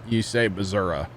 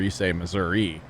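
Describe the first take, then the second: First: It uses the southern Missouri pronunciation. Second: It uses the northern Missouri pronunciation.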